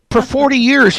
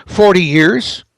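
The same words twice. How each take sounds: First: Higher, louder "forty" hammered in disbelief; incredulous emphasis. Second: Said in the usual way. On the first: Real, not acted. Radio guest mocking the economist's answer, incredulous stress. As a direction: punch "forty years" like you can't believe it.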